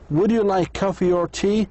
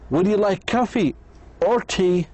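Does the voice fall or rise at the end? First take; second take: rise; fall. First: The voice rises at the end. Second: The voice falls at the end.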